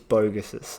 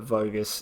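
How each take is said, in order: First: The name begins with a B sound. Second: The name begins with a V sound. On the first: This is the English reading of the name. "in English, it's" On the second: This is the Hungarian reading of the name. "the phonetic pronunciation from Hungary"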